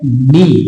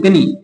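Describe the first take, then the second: First: The word starts directly with the n sound. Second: A k sound is pronounced before the n. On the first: The speaker calls it right. "के silent है और ये है नी" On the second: The speaker calls it wrong. "आप अगर बोलते कनी तो कनी नहीं है"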